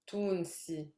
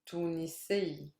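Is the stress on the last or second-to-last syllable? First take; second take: second-to-last; last. First: The stress is on the second-to-last syllable. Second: The stress is on the last syllable. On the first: This is the everyday spoken form. "in colloquial" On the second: This is the formal standard form. "all the nationalities in M S A, I stress the last syllable"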